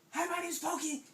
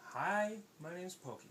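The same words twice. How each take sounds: First: Sudden high, loud hello; loud, high pop-up introduction; startling greeting. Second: Slow, easy hello; unhurried, measured introduction; slow, careful greeting. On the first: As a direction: burst out to surprise them. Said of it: "And he surprised them". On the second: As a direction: say it gently paced so nobody gets scared. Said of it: "I'm just gonna swim up real slow". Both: Acted.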